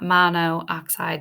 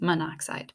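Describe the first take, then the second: First: The two o vowels are kept apart. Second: The two o vowels merge into one. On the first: The speaker calls it wrong. "it's not monoxide" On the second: The speaker calls it right. "it's just monoxide"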